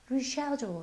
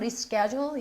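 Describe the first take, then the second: First: It is said with a British pronunciation. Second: It is said with an American pronunciation. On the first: "영국식 발음" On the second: "미국식 발음은"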